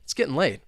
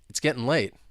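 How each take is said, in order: First: It is spoken very fast. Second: It is spoken fast. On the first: "let's try and say it, well, super fast" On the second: "let's say it faster"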